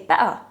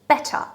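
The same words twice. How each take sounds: First: The middle t is a glottal stop. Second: The middle t is a clear, full t. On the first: This is another form used in flowing speech. "Or maybe use a glottal T and say better" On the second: This is the careful citation form. "they will probably pronounce it just like that"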